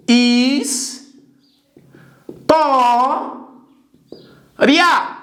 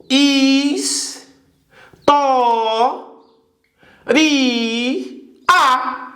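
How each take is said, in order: First: "Is, to, ria" said as three separate syllables with long pauses; spelled by syllable. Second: "Is, to, ri, a" with a pause before each syllable; split into four syllables. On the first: Teacher splitting the word for students, slow syllables. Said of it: "Três sílabas". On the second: Teacher showing the hiatus to students, four slow syllables. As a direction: break the "ia" apart into its own beats. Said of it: "eu formei ali um hiato". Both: Shown as a demonstration.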